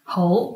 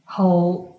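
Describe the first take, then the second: First: It is said with the tone meaning good. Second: It is said with the tone meaning like. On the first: The word means good or ready. "is pronounced 猴 when it is used as an adjective or adverb, good or ready" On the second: The word means to like something. "But when it's used as a verb, it's pronounced as 猴"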